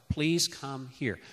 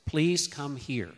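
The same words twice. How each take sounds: First: Softer request. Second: Slow, calm please; unhurried parent asking a toddler to come; gentle request. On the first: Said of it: "So it's like". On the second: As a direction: ask softly and patiently. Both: Shown as a demonstration.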